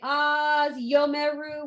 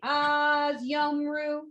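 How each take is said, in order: First: A vowel is sounded between the m and r. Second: No vowel is sounded between the m and r. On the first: The speaker calls it wrong. "We don't say" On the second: The speaker calls it right. "We just say"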